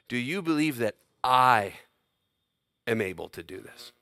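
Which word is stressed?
I. The stress falls on the word I. The question is about who is able to do it. "Or you could give it this inflection"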